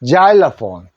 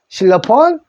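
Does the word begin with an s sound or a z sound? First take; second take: z sound; s sound. First: It begins with a z sound and 'eye'. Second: It begins with a plain s sound. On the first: This is the English pronunciation. "그거 자일로폰이라 합니다" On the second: This is the Korean loanword pronunciation. "실로폰 치죠?"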